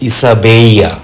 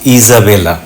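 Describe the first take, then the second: First: The name is said with a Spanish pronunciation. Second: The name is said with an English pronunciation. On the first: This is the Spanish form of the name. "Spanish ভাষায় ওনার নাম ইসাবেইয়া" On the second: This is the English form of the name. "ইংরেজিতে ইজাবেলা"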